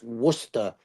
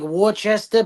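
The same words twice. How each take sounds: First: The word is said in a shortened, contracted form. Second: Every written syllable of the word is sounded out. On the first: The speaker calls it right. "they always tell us it's pronounced Worcester" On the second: The speaker calls it wrong. "it looks like Worcester"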